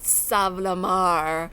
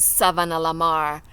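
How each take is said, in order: First: The middle syllables of the name are dropped. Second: All syllables of the name are pronounced. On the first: The speaker calls it wrong. "not Sav-la-Mar ... as we say today" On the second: The speaker calls it right. "it is Savannah-la-Mar"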